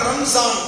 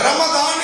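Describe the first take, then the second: First: The middle consonant is a z sound. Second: The middle consonant is a d-like sound. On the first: The speaker calls it wrong. "ரம்ஜான் அப்படின்னு பேர் வைப்பாங்க" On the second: The speaker calls it right. "ரா மீம் லாது நூன்"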